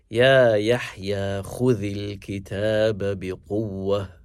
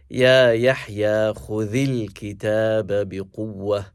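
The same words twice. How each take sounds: First: The stress in khudhil is on the first syllable. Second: The stress in khudhil is on the second syllable.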